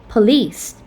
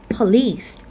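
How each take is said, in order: No difference in how they are said.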